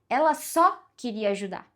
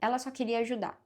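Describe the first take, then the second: First: The word ajudar carries the stress. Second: No word is given special stress. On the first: Helping was the only thing she wanted to do. "era só isso que ela queria fazer, só ajudar" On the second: A plain statement with no special focus. "é uma frase neutra"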